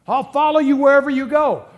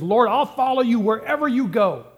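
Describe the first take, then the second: First: Loud, high, hammed-up eagerness; overly enthusiastic. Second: Eager, a touch higher and brighter; enthusiastic. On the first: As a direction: overplay the eager follower, nearly shouting. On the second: Retold or imitated. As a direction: play the keen would-be follower, a little raised. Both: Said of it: "He's enthusiastic".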